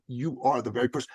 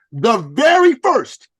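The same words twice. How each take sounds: First: Said in the usual way. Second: "very" slow, high and loud; stress on very. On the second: Retold or imitated. Coach stressing to client, "very" slow and loud.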